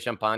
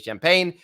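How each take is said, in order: First: It is said with a French accent. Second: It is said with an American accent. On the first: "I don't say" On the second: "I say"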